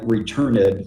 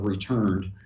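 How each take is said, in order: First: The word has three syllables, ending in -id. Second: The word has two syllables, ending in d. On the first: The speaker calls it wrong. "like three syllables" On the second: The speaker calls it right. "instead of returned"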